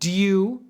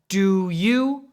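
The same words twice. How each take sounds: First: The two words blend into one quick reduced syllable. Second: Both words are said fully and separately.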